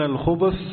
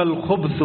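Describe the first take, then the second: First: الخبث voiced as khubuth, with a short u after the b; damma on the ba. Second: الخبث voiced as khubth, no vowel after the b; sukun on the ba. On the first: Teacher explains the first reading of the hadith word, الخبث as khubuth with damma. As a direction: say الخبث in two syllables, khu-buth. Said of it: "بالضم". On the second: Teacher explains the second reading of the hadith word, الخبث as khubth with sukun. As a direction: close the b straight onto th in الخبث, khubth. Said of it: "بالتسكين". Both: Shown as a demonstration.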